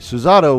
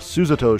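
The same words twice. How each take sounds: First: The middle syllable carries the stress. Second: An early stress, then the pitch falls. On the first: "more of an English speaking with a syllable in the middle" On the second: "a stress and then a declination in the accent"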